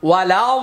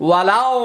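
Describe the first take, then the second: The two takes are said the same way.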